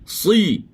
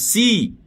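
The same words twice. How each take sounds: First: The s is heavy, with the tongue root raised. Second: The s is light, with the tongue root low. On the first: The speaker calls it right. "Pangkal lidah biar naik" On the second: The speaker calls it wrong. "Jangan si"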